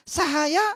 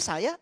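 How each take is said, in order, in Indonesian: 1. Kata itu diucapkan pelan, ada tiga suku kata. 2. Kata itu diucapkan cepat, ada dua suku kata.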